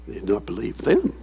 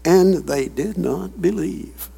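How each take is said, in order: First: "them" said much lower and softer, almost under the breath; quiet low echo of the line; hushed restatement. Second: Said in the usual way. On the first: Shown as a demonstration. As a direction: drop the voice low and soft on "They did not believe them".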